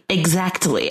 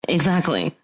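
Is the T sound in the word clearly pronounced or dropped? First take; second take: pronounced; dropped. First: The T sound in the middle is clearly pronounced. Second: The T sound in the middle is dropped. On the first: Other people say it this way. "when people say exactly with the T in it" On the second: This is a lazy shortcut in enunciation. "my lazy way of like trying to shortcut my enunciation"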